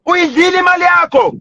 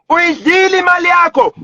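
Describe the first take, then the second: First: Said in the usual way. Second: Repeated as a real angry shout; real angry shout of the accusation. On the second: Real, not acted.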